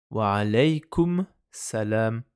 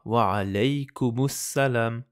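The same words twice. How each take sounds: First: Slow "Wa alaykum", a break, then "salam"; Wa alaykum / salam, in two separate pieces; unlinked words. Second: Wa alaykumus salam as one slow, joined phrase; all in one go. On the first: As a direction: stop on the m of "alaykum" before "salam". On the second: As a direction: slowly run "alaykumus salam" together without a break. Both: Shown as a demonstration. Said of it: "Pour tout prononcer d'un coup".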